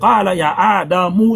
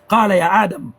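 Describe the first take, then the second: First: The last letter of Adam is sounded with a vowel. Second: The last letter of Adam has no vowel after it. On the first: The reading continues into the next words. "si je continue" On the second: The reading stops at this word. "pour arrêter"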